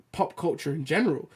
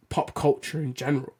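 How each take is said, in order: Both takes have the same delivery.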